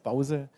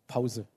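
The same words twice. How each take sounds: First: The word is said in a Franconian accent. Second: The word is said in a standard German accent. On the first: "Fränkisches Pause" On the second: "auf Schwäbisch und Deutsch Pause"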